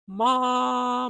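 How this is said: The voice is at a high pitch. "At a higher register is the same pattern"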